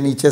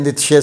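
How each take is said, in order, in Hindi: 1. नाम के बीच में 'ch' की आवाज़ है। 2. नाम के बीच में 'tsh' की आवाज़ है। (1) "जिसको नीचे भी प्रोनाउंस करते हैं" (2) "नीत्शे साहब"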